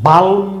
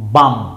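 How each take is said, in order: First: The L sound is pronounced in the word. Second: The L sound is left out of the word. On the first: The speaker calls it wrong. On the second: The speaker calls it right.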